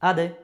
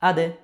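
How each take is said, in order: No difference in how they are said.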